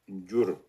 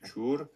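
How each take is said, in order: First: The word begins with a gy sound. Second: The word begins with a ch sound. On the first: This is how Lhasa Tibetans say it. "Les Tibétains de Lhasa, ils vont prononcer gyur" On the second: This is how Eastern Tibetans say it. "Les Tibétains de l'Est, ils vont prononcer chur"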